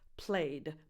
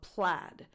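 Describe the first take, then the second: First: The vowel sounds like the one in played. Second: The vowel sounds like the one in bad. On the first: It sounds like the past tense of play. The speaker calls it wrong. "you don't pronounce this plaid" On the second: It names the checked pattern. The speaker calls it right. "but plaid"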